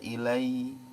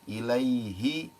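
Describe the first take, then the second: First: The h sound in the middle is dropped. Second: The h sound in the middle is clearly heard. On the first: The speaker calls it wrong. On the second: The speaker calls it right.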